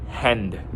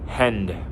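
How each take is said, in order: Both takes have the same delivery.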